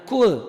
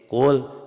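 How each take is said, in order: First: It starts with a plain front k sound. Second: It starts with a deep back-of-throat q sound. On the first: The speaker calls it wrong. "jangan kul" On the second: The speaker calls it right. "Pakai kof ya"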